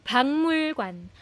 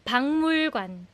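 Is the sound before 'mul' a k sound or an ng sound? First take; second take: ng; ng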